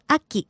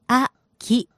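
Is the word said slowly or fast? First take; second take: fast; slowly. First: It is said quickly at natural speed. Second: It is said slowly, syllable by syllable.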